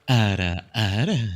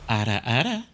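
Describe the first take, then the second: First: It is said in a seductive voice. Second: It is said in a sweet voice.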